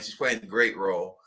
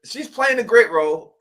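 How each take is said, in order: First: Said in the usual way. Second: Much higher and louder, gushing over the role; excited gush. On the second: Real, not acted. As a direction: rave about it, pitch way up. Gushing about Van's role.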